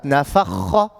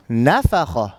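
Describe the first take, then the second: First: NafaKHA, weight pushed onto the later syllables; slow nafakha, leaning late on a lengthened kh; misplaced stress. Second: NAfakha, emphasis on the opening NA; stress on first syllable. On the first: Teacher shows the mistake, nafakha stressed late in the word. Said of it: "Not nafakha". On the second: Teacher repeats the correct model, NAfakha stressed up front. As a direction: hit the NA, let the rest of nafakha fall away. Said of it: "apply emphasis on the first letter". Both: Shown as a demonstration.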